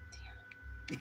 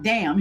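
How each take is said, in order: First: A breathless whispered "Damn." under the breath; whispered curse. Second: "Damn." replayed much louder, laughing it off; loud replay of a curse. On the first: Real, not acted. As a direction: let "Damn." slip out as a whisper. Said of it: "You guys heard me?". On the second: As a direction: replay "Damn." loudly for the viewers. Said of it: "I'm like".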